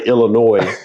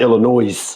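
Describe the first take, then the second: First: The word ends without an s sound. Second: The word ends with an s sound. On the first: The speaker calls it right. "we had to learn how to say Illinois" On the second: The speaker calls it wrong. "Don't put the S on it because, boy, it's bad"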